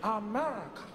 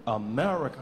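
First: Husky AMERICA in usual pitch; husky model. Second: AMERICA low and loud, without husk; husk missing. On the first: Mandela giving Obama the word to copy, husky. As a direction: put husk into AMERICA. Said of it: "Now, repeat after me". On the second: Obama's failed repeat after Mandela, low without husk. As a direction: drop AMERICA deep but leave out the rasp. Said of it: "No, the husk". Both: Acted.

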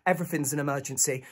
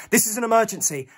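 First: Softer, unimpressed put-down; dismissive receptionist. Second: Higher, pressing protest; urgent insistence. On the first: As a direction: brush off the panicking visitor. Receptionist brushes the plea off. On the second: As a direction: insist that it cannot wait. Pleads urgently at hospital desk. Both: Acted.

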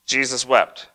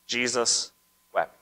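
First: Said in the usual way. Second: Jesus, a pause, then wept; 1 slow, with a pause. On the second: Shown as a demonstration. Preacher lingering on the shortest verse. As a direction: let Jesus hang before wept. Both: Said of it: "the shortest verse in the Bible".

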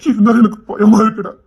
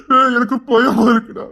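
First: Said in the usual way. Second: Slow, tearful plea to his friend; scared father sobbing to his friend; crying fear. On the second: Acted. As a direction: break down as you admit the fear. Father fears for daughter.

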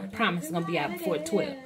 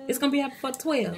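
First: Said in the usual way. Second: "It's gonna be out before twelve" said higher and quicker, pushing on "gonna"; emphatic repeat. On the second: Real, not acted. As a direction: insist "gonna" as a promise.

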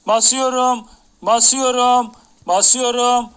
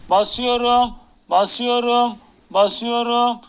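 No difference in how they are said.

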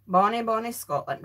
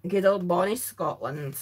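First: Said in the usual way. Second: Lower, hammed-up Scottish lilt on "Good old bonny Scotland"; light jokey Scottish brogue, lower pitch; mock Scottish accent. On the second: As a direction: put on a playful Scottish voice as if from the family tree. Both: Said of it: "I got some Scottish in my family tree".

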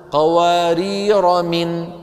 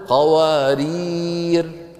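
First: قوارير run straight into من with no final alif; joined recitation. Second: قوارير chanted very slowly, ending in a stopped final r; pausal stop. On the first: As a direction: link قوارير to من, slow and chanted, dropping the alif. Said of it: "لو وصلناها نقول". (وصل قوارير بمن بلا ألف) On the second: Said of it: "ولو وقفنا نقول". (وقف على قوارير بالسكون) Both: Shown as a demonstration.

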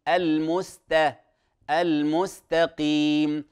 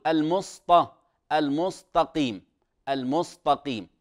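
First: Slow "المستقيم" with a thin, clear س; correct light seen. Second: "المستقيم" with س darkened into ص; mistaken heavy seen. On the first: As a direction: draw out "المستقيم", keeping s light, not ص. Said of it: "وهي رسمت بالسين". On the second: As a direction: thicken s in "المستقيم" into emphatic ص. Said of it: "إبدال السين صادا". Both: Shown as a demonstration.

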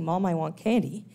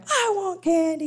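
First: Said in the usual way. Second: High, loud imitated kid's whining cry; child crying for candy at the store, loud mock wail. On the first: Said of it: "Why bother asking". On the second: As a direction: wail it like a child throwing a tantrum. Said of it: "He's just gonna cry".

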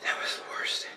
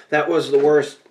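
First: Breathless pained whisper. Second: Said in the usual way. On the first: Real, not acted. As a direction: whisper it, drained by the burn. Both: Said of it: "I'm crying".

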